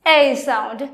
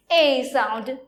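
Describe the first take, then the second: First: "A" as the open French è; open A sound. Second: "A" as the closed French é; closed A sound. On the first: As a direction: say "A" with the open grave-accent vowel. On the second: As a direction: say "A" with the tight acute-accent vowel. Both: Shown as a demonstration. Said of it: "There is a difference".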